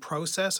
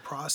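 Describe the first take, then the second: First: The word is said with a non-American pronunciation. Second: The word is said with an American pronunciation. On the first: "instead of saying process" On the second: "I say process"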